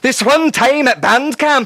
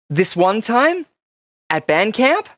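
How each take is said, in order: First: It is said in a Scottish accent. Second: It is said in a poor attempted American accent. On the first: "I'll do it in a Scottish accent" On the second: "That wasn't an American accent"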